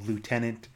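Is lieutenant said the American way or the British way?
American. It is said the American way, without an f sound.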